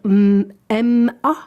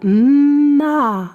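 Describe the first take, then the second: First: Two letter names are said one after the other. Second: The sounds are blended into a single syllable. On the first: The speaker calls it wrong. "il va pas dire M A" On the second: The speaker calls it right. "il va dire ma"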